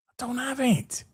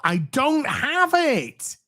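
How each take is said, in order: First: High, soft little denial; quiet high-pitched aside; small-voiced protest. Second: High, drawn-out protest; high-pitched emphatic denial. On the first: Softer repeat of protest. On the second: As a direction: stretch it out high in exasperation. Emphatic protest, then softer repeat. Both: Real, not acted.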